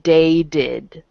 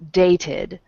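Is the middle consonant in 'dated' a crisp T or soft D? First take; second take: soft D; crisp T. First: The middle consonant is a soft D-like sound. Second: The middle consonant is a crisp, clear T. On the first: The speaker calls it wrong. "they don't pronounce the T very well ... It sounds like D A D" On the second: The speaker calls it right. "when you pronounce it well, it's dated"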